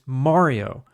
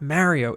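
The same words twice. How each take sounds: First: It is pronounced the Italian way. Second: It is pronounced the American East Coast way. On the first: The speaker calls it right. "She's Italian and she's like" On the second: The speaker calls it wrong. "it's not Mario"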